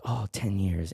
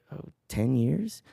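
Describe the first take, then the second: First: Low "ten years" falling at the end; wistful echo. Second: Slow "ten years" rising at the end; hesitant answer. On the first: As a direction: let "years" sink with a sigh of recognition. Florist repeats the answer, moved. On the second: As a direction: let "years" lift like a question. Answers question, unsure before the florist. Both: Retold or imitated.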